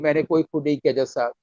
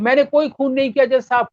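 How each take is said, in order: First: It is said quietly, as if close by. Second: It is projected loudly, as if far away.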